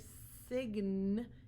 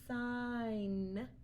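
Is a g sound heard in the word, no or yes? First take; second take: yes; no. First: A g sound is pronounced in the word. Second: No g sound is pronounced in the word. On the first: The speaker calls it wrong. "So we don't hear sign" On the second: The speaker calls it right. "We only hear sign"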